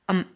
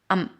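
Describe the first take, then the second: First: It has a short, reduced vowel. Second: It has a short, reduced vowel.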